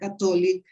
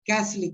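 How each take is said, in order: First: The middle syllable is pronounced. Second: The middle syllable is dropped. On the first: The speaker calls it wrong. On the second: The speaker calls it right. "drop, to eliminate one syllable"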